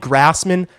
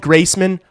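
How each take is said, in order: First: The first syllable sounds like 'grass'. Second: The first syllable sounds like 'grace'. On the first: "If you call me Grassman, I don't care" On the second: "If you call me Graceman, I don't care"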